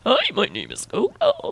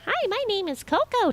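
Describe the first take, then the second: First: It is said in a distorted, lowered voice. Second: It is said in a normal voice.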